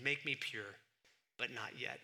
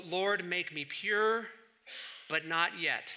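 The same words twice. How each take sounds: First: Softer, dry repeat with a wink; quiet ironic echo. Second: Drawn out slowly like a solemn prayer; slow recited prayer. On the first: Preacher repeating Augustine's prayer to mock it, quiet ironic echo. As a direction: murmur it back, tongue in cheek. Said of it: "I love that prayer". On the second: Preacher quoting Augustine's famous prayer, slow solemn recital. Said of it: "how did it go?". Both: Retold or imitated.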